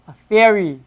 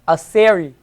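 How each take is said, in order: First: The word theory begins with a th sound. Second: The word theory begins with an s sound. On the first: The speaker calls it right. "It's pronounced as a T H" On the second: The speaker calls it wrong. "we wouldn't say"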